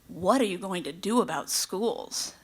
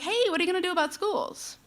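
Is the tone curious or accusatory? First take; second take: accusatory; curious. First: It sounds accusatory and judgmental. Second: It sounds curious and friendly.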